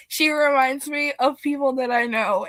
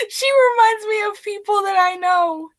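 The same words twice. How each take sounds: First: Said in the usual way. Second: High, loud, laughing through the words; can't get it out for giggling. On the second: Real, not acted. Telling viewers why she hates Tinkerbell, laughing. Laughing while explaining a hated character.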